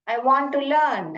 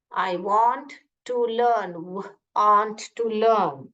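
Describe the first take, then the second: First: "I want to learn" said very slowly, word by word; slow model phrase. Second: "I want to learn" drawn out very slowly, each word apart; slow repeat. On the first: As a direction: spell it out slowly for the class. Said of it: "सीखना है बोलिए". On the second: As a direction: say it slowly back to the teacher. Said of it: "ऐसे बोलिए". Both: Shown as a demonstration.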